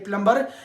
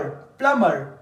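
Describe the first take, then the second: First: The word is said with an audible b sound. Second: The word is said with no b sound.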